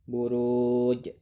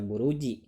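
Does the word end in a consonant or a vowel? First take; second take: consonant; vowel. First: The word ends on the consonant j. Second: The word ends with an added i vowel. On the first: The reciter stops at the end of the verse. The speaker calls it right. "diwakafkan menjadi harokatnya sukun menjadi buruj" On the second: The reading carries on without stopping. The speaker calls it wrong. "tidak dibaca buruji ya"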